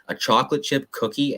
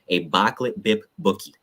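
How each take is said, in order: First: The words keep their usual K and CH sounds. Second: The K and CH sounds are replaced with B. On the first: This is the ordinary way of saying it. "as we would pronounce it" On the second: The speaker avoids the letter C as a gang marker. "they don't use the C in anything"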